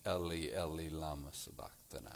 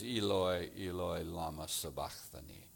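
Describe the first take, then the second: First: Put-on low, hushed cry in a light Jewish accent; Jewish-accented quote. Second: Put-on low, soft cry in a light Greek accent; Greek-accented quote. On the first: Preacher quotes Matthew's words from the cross, Jewish accent. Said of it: "writes with a Jewish accent". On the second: Preacher quotes Mark's words from the cross, Greek accent. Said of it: "Greek or international accent".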